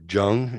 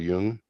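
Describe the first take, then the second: First: The name begins with a J sound. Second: The name begins with a Y sound.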